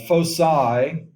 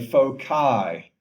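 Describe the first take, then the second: First: The c is said as a soft s sound. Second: The c is said as a hard k sound.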